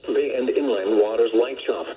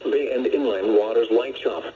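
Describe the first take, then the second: No difference in how they are said.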